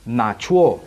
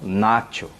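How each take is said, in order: First: The final syllable carries a light stress. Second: The final syllable carries no stress. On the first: The speaker calls it right. "tente dar uma leve entonação na última sílaba" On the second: The speaker calls it wrong. "e não nacho"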